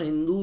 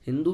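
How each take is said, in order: First: The final u vowel is long. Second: The final u vowel is short. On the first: "बड़ा दू वाला" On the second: "छोटा दू वाला"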